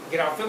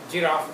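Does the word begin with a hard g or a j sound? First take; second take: hard g; j sound. First: It begins with a hard g sound. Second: It begins with a j sound. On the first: This is the German pronunciation. "German में गिराफे बोलते हैं" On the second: This is the English pronunciation. "English में जिराफ बोलते हैं"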